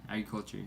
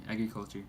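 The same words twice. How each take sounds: The two takes are said the same way.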